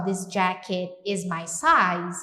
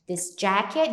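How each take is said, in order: First: Slow model. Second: Said in the usual way. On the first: Shown as a demonstration. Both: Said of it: "então eu posso falar só".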